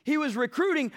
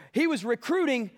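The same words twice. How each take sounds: The two takes are said the same way.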